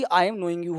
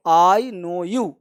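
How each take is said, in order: First: "I am knowing you" dropped softer as the wrong version; wrong form, softer. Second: "I know you" spelled out very slowly, each word apart; slow model answer. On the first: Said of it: "ना कि". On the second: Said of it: "ये दोनों का अंग्रेजी". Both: Shown as a demonstration.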